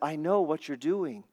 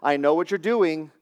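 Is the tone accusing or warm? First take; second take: warm; accusing. First: It sounds warm and affectionate. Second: It sounds stern and accusing. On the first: The watcher cares lovingly about the one watched. The speaker calls it right. "I'm saying that like a father to my children who says" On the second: The watcher is catching someone out. The speaker calls it wrong. "I'm not saying that like a dad who says"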